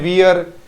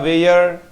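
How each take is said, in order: First: The vowel sounds like 'ear'. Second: The vowel sounds like 'air'. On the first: The speaker calls it wrong. "हम क्या बोलते हैं? वियर।" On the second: The speaker calls it right. "वियर नहीं होता, वेयर"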